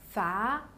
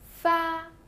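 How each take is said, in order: First: The pitch rises from middle to high. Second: The pitch stays high and level.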